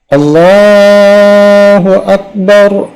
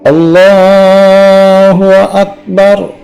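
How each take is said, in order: No difference in how they are said.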